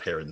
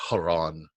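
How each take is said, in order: First: The name is said with an English pronunciation. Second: The name is said with a Greek pronunciation. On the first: "we naturally nowadays call it" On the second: "in the Greek pronunciation"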